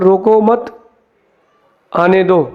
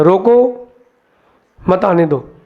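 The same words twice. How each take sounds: First: "रोको मत" said together, pause, then "आने दो"; don't stop, let them come, with the break after मत. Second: "रोको" said alone, pause, then "मत, आने दो"; "रोको", a long pause, then "मत आने दो"; pause after रोको. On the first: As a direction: keep "रोको मत" as one phrase and break before "आने दो". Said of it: "लिखो वहाँ बोर्ड पर". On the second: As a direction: break right after "रोको" so it reads as stop them, don't let them come. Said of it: "उसने लिखा". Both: Shown as a demonstration.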